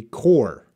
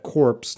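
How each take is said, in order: First: "core" with silent P and S, ending on the R; correct pronunciation demo. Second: "corpse" with P and S both sounded; wrong pronunciation demo. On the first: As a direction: give the correction "core", falling in pitch. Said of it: "It would be core". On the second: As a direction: show the mistake "corpse", ending in an audible PS. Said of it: "We do not pronounce that". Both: Shown as a demonstration.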